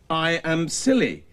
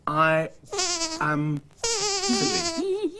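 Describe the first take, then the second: First: Said in the usual way. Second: I Am Silly drawn out very slowly, higher, with a mock cry; mock dismayed wail. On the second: Man realises the puppets' book is a joke on him, mock wail. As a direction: wail the name as the joke dawns on you. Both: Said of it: "Who did I say wrote it?".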